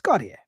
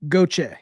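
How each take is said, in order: First: The name is said with its French pronunciation. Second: The name is said the local way, like 'Goche'. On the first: The speaker calls it right. "it's Gautier. It's the way it's pronounced" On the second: The speaker calls it wrong. "They pronounce it Goche"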